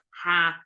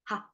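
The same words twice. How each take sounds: First: The syllable is said in full tone. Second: The syllable is short, light and unstressed. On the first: The speaker calls it wrong. "its full form of" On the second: The speaker calls it right. "It's just ha"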